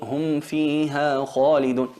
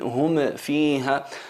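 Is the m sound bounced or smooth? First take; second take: smooth; bounced. First: The m is clear and smooth, without a bounce. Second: The m is pushed out with an echoing bounce. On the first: The speaker calls it right. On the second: The speaker calls it wrong.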